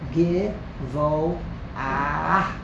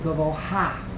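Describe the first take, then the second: First: The word ends with 'ah' plus a final h. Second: The word ends with an 'ha' syllable. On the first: The speaker calls it right. "Givo ah aleph sound, and at the end of the aleph sound, you add a mapake" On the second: The speaker calls it wrong. "they think you pronounce it gavoha. That is patently wrong"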